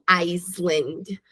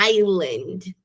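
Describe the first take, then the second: First: The word is said with an s sound. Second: The word is said with no s sound. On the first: The speaker calls it wrong. "não Iceland" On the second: The speaker calls it right. "Esse S desaparece"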